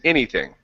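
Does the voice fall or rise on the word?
fall. The pitch falls through the word. The speaker calls it right. "by coming down"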